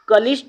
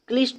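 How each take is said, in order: First: A full vowel is heard between k and l. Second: The k and l form one cluster. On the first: The speaker calls it wrong. "कलिष्ट नहीं होता" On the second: The speaker calls it right. "बल्कि क्लिष्ट क्लिष्ट होता है"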